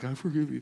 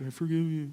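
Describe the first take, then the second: First: It is spoken clearly with the mouth open. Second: It is mumbled with the mouth barely open.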